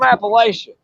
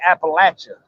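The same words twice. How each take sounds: First: It is said the usual outsider way. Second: It is said the local regional way. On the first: This is how people elsewhere say the name. "I'm from" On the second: This is how people from the region say the name. "or as we say"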